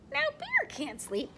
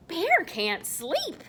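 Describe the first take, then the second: First: Said in the usual way. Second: Slow, suspenseful reading; story punchline. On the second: A narrator's reading. Storyteller reveals the bear is wide awake, slowly. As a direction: hold out each word. Story line, then repeated as aside.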